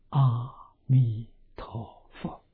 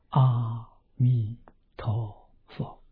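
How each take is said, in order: The two takes are said the same way.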